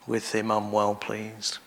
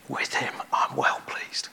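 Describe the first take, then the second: First: Said in the usual way. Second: Soft hushed whisper of blessing; a tender whisper, no voice. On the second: Acted. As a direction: breathe it gently over each listener. Jesus speaks blessing over listeners.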